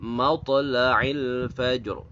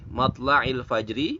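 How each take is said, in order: First: The last word ends on a consonant, vowel dropped. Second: The last word ends with a vowel sound. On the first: "maka dibacanya adalah matla'il fajr" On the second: "ada kata matla'il fajri"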